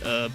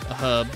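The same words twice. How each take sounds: First: The word begins with a vowel, no h sound. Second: The word begins with an audible h sound. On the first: "Americans that don't pronounce the H in herb, they say herb" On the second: "I pronounced the H"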